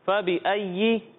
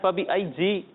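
First: The yā' is said as a clean y. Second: The yā' is said with a j-like sound. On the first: The speaker calls it right. "فبی ای پڑھیں" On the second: The speaker calls it wrong. "فبی ای جی نہیں پڑھنا"

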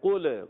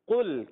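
First: The final lam is moved with an extra vowel. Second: The final lam stays still without a vowel. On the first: The speaker calls it wrong. "بعض بچے بڑے قل پڑھتے ہیں، قل غلط" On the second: The speaker calls it right. "لام کو ہلانا نہیں ... آپ نے پڑھنا ہے قل"

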